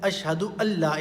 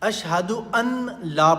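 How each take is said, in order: First: The n merges into a double l sound. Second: The n is said separately before la. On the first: The speaker calls it right. "अशहदु अल्ला इलाहा इल्लल्लाह है" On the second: The speaker calls it wrong. "इसमें बहुत सारे लोग गलती करते हैं। ... ये गलत है।"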